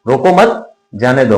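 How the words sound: The pause comes right after 'mat'.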